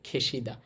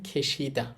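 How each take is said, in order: The two takes are said the same way.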